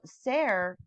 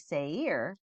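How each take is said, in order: First: The name is said like 'Ser'. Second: The name is said like 'Seir'. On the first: The speaker calls it wrong. "I'm saying it wrong" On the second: The speaker calls it right. "is actually Seir"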